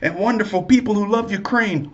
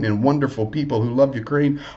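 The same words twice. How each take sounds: First: It is said in a put-on South African accent. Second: It is said in the speaker's ordinary accent.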